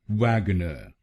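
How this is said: It is said in a British accent.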